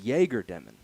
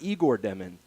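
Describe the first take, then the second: First: The first name sounds like 'Yay-ger'. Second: The first name sounds like 'Eye-gor'. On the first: The speaker calls it right. "it's Jaeger Demon" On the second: The speaker calls it wrong. "it's not Igor Demon"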